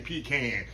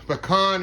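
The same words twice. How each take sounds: First: The word sounds like 'pee can'. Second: The word does not sound like 'pee can'. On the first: This is how people outside Texas say it. The speaker calls it wrong. "some people say pecan" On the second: This is how people in Texas say it. The speaker calls it right. "we say pecan here in Texas"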